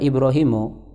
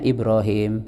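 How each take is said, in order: First: The name ends with a final vowel. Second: The name ends on a bare consonant. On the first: This is the full form of the name. "Sebenarnya namanya itu adalah Ibrahimu" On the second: The name is read with a pause at the end. "kita baca dengan waqaf"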